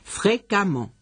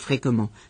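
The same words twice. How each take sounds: First: The vowel before -mment sounds like an a. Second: The vowel before -mment sounds like an e. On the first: The speaker calls it right. "se pronuncia como si tuviera una A" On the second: The speaker calls it wrong. "y no fréquemment"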